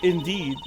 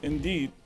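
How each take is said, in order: First: It is said in a normal voice. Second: It is said in a very deep voice.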